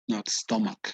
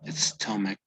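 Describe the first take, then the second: First: The vowel does not sound between A and E. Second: The vowel sounds between A and E. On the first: The speaker calls it wrong. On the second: The speaker calls it right. "the pronunciation is between an A and an E"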